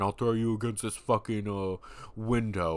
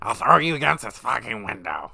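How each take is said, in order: First: It is said in a plain, normal voice. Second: It is said in a nasal, put-on voice.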